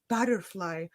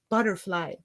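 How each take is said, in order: First: The word is said softly and gently. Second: The word is said harshly, almost screamed. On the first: "they always say butterfly" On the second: "When I pronounce it that way, it sounds harsh"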